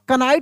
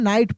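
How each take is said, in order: First: The word begins with a clear k sound. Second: The word begins directly with an n sound. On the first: The speaker calls it wrong. "इसको कनाइट नहीं पढ़ेंगे" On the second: The speaker calls it right. "इसको हम नाइट पढ़ेंगे"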